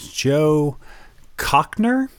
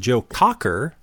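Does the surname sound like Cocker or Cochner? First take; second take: Cochner; Cocker. First: The surname is said as Cochner, with an added n. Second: The surname is said as Cocker, with no n. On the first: The speaker calls it wrong. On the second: The speaker calls it right.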